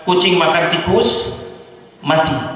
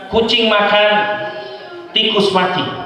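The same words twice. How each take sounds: First: The pause comes after tikus. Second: The pause comes after makan.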